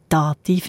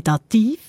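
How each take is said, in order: First: Said in the usual way. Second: Dativ said oddly as da-TIV, weight on the end; stress on second syllable. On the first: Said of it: "wieso denn der Dativ nicht?". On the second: Shown as a demonstration. Host asking why not, Dativ stressed on the last syllable. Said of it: "auf der zweiten Silbe betont".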